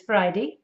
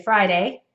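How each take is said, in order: First: British "Friday", imitating the newsreader; British pronunciation. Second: Said in the usual way. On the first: Shown as a demonstration. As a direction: say "Friday" as a British speaker would. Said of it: "he says Friday". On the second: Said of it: "and I would say Friday".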